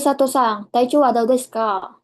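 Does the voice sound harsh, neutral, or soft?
harsh. It is spoken in a hard, harsh voice. "ada juga yang paling keras ... kurang sopan"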